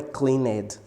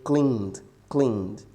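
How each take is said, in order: First: "cleaned" in two syllables, "clean-ed"; wrongly voiced E. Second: "cleaned" as one syllable, "kleend"; silent E. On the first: Teacher shows students the forbidden "cleaned", E pronounced as extra syllable. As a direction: sound out the E in "cleaned": "clee-ned". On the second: Teacher corrects for students, "cleaned" with silent E. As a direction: say "cleaned" with no vowel before the D. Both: Shown as a demonstration. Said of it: "Essa letra E aqui a gente não pode pronunciar".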